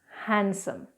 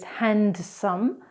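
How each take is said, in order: First: The D is silent in the middle. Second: The D is sounded in the middle. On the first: The speaker calls it right. "it's actually pronounced handsome" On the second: The speaker calls it wrong. "So incorrectly is handsome"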